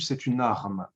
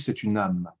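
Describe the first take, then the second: First: The R in the last word is clearly pronounced. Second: The R in the last word is dropped. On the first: The speaker calls it right. "bien prononcer le R" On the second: The speaker calls it wrong. "j'ai entendu c'est une âme"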